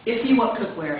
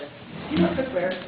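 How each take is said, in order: First: It is said with lively, confident inflection. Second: It is said flatly, without much conviction.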